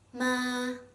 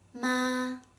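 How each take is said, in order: First: The pitch stays high and level. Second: The same.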